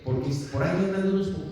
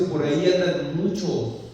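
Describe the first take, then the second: First: Quick, dismissive "unos poquitos"; mock misquote. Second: Loud, slow correction on "muchos"; stress on MUCHOS. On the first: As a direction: rattle off the wrong version, ending on "unos poquitos". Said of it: "Pablo no está diciendo". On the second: Shown as a demonstration. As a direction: hammer "muchos" slowly and loudly. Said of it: "No, Pablo dice".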